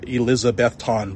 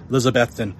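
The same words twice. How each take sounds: First: The name is said as it is spelled. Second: The name is said the local way. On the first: This marks someone as an outsider. The speaker calls it wrong. "it's spelled like Elizabethton, but you say that and they'll poke fun at you" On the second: This is how locals say it. The speaker calls it right. "that's how you say it's Elizabethton"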